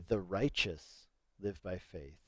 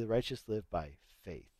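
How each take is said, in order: First: The stress is on "righteous". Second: The stress is on "faith".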